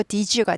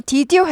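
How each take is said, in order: First: "did you" blended into "di-joo"; softened linking. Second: "did you" as separate "did" and "you"; unlinked sounds. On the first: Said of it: "did you가 되죠". ("did you" 디쥬로 부드럽게) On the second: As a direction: keep a plain d before "you", no j sound. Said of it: "did you 하지 않고". ("did you" 디드 유로 따로따로) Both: Shown as a demonstration.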